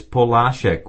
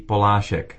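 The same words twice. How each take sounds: First: Polášek stressed on LÁ; stress on second syllable. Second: Polášek stressed on PO; stress on first syllable. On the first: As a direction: put the emphasis on the middle syllable of Polášek. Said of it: "with emphasis on the second syllable". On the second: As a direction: put the emphasis on the opening syllable of Polášek. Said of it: "the first syllable is always emphasized". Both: Shown as a demonstration.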